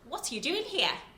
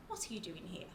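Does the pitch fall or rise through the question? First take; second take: rise; fall. First: The pitch rises through the question. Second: The pitch falls through the question. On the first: "So I can rise up" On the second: "Or I can rise down"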